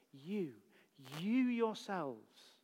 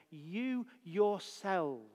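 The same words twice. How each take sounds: First: "You, you yourselves" slow with You stressed; emphatic you. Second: "You yourselves" drawn out slowly with weight on You; emphatic you. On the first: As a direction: slowly double You before yourselves. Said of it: "It's emphatic". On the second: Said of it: "is there absolutely and clearly". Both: Real, not acted. Preacher stressing the Greek emphasis, slow and weighty.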